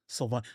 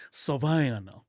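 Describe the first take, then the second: First: Said in the usual way. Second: Savannah stretched out slow and syrupy; drawled Savannah accent. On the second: Shown as a demonstration. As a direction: drip the word Savannah like molasses. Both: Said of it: "like molasses dripping off the tongue".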